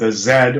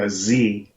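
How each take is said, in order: First: The letter is said the British way. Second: The letter is said the American way.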